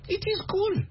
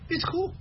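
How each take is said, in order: First: It is said as two full words. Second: It is contracted into one syllable. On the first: The speaker sounds like a non-native speaker. The speaker calls it wrong. "they know you're not American" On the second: The speaker sounds like a native speaker. The speaker calls it right. "The Americans say"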